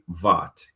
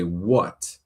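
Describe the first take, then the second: First: The word starts with a V sound. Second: The word starts with a W sound. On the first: The speaker calls it wrong. "you don't say "vat,"" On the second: The speaker calls it right. "you say "what,""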